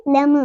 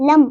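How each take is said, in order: First: लम with a small vowel after the M; wrong bounced M. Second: लम with no echo after the M; correct closed M. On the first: Teacher demonstrates the mistake, bounced लम. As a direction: let the M of लम echo open. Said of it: "यह गलत हो जाएगा". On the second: Teacher models no qalqala here, closed लम. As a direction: stop लम dead on closed lips. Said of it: "हम इधर पढ़ेंगे लम". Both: Shown as a demonstration.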